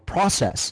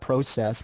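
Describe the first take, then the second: First: It is said with an American pronunciation. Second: It is said with a Canadian pronunciation. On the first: "it's the Americans that call it, you know, process" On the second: "the way you pronounce it, process, which is correct"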